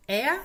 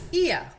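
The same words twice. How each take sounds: First: "ea" loud and high, e into schwa; "ea" diphthong drill. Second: "Ia" loud and high, i into schwa; "ia" diphthong drill. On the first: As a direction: model "ea" as one gliding vowel. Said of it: "que son el E A". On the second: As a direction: model "Ia" as one gliding vowel. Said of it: "y el I A". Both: Shown as a demonstration.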